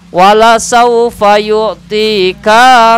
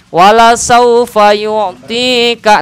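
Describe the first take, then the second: First: The vowel after k is drawn out melodically. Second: The vowel after k is kept short and level. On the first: The speaker calls it wrong. "kaf yang dibaca pendek karena ada cengkok maka bunyinya jadi memanjang" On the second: The speaker calls it right. "Lurusin aja"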